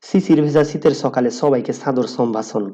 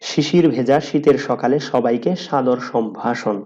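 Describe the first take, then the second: First: It is spoken in an Old Dhaka regional accent. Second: It is spoken in a careful standard accent. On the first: "পুরান ঢাকার মানুষ অনেকটা এইভাবে কথা বলে" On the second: "এটাকে আমি একটু সুন্দর করে বলতেছি"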